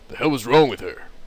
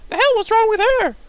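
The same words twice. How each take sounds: First: It is said in a deep, manly voice. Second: It is said without a deep, manly voice.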